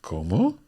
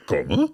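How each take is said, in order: First: Said in the usual way. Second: "¿Cómo?" said louder with a rising end; raised voice. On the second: Shown as a demonstration. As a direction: push "¿Cómo?" up, louder, as a startled question. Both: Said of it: "I think your voice would raise there".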